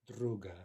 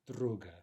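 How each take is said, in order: Both takes have the same delivery.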